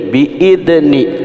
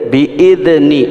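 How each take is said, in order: Both takes have the same delivery.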